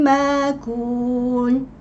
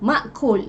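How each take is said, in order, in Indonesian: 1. Hamzah berubah menjadi vokal panjang. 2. Hamzah dibaca setelah vokal pertama. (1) "itu adalah bacaan ibdal, menukarkan hamzah kepada huruf yang sesuai" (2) "kita biasa kita baca dengan ma'kul ya, dengan tahqiq"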